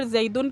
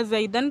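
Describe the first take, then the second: First: "زیدن" ending in -un, as zaidun; nominative ending. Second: "زیدن" ending in -an, as zaidan; changed to accusative ending. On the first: Teacher shows students the original case, "زیدن" ending -un. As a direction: say "زیدن" with a final u sound before n. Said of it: "زیدن کی جگہ زیدن کر دوں". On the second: Teacher swaps the case for students, "زیدن" ending -an. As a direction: say "زیدن" with a final a sound before n. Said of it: "کی جگہ زیدن کر دوں". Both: Shown as a demonstration.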